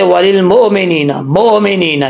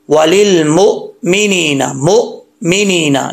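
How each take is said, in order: First: वालिल मोमिनीना with a bouncing echo vowel after मो; mistaken qalqala. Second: Slow वालिल मोमिनीना with a dead stop after मो; jolted hamza. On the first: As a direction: run मो into मिनीना with a wrong bounce on the hamza. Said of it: "हमज़ा में कलकला कर देते हैं". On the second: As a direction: catch the hamza sharply so the voice halts before मिनीना. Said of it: "ये झटका है". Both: Shown as a demonstration.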